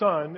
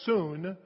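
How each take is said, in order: First: The vowel sounds like the one in 'son'. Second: The vowel sounds like the one in 'soon'. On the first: The speaker calls it wrong. "What we might pronounce it as son" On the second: The speaker calls it right. "is actually soon"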